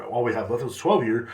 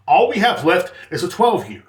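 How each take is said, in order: First: Said in the usual way. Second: Higher, louder, each word of "All we have left is a twelve year" punched; insistent, emphatic "All we have left is a twelve year"; exasperated repeat. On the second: Retold or imitated. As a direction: spell out "All we have left is a twelve year" to a customer who won't listen. Repeats it to customer, losing patience.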